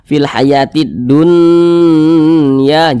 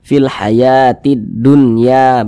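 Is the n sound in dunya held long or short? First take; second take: long; short. First: The n is held long with a nasal hum. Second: The n is short and clear, without nasal hum. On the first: The speaker calls it wrong. "Jangan dibaca ... jangan dipanjangkan seperti itu" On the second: The speaker calls it right. "dibaca jelas, tidak berdengung, baca pendek saja"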